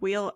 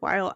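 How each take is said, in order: First: The name sounds like the word 'wheel'. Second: The name sounds like the word 'while'. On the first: "I have heard wheel" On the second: "I have heard while"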